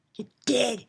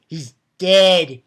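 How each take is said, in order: First: Unvoiced, gleeful whisper. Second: Louder, punching dead; loud declaration. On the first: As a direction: whisper it like a secret pleasure. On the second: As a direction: announce it triumphantly. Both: Real, not acted. Gloating over villain's death.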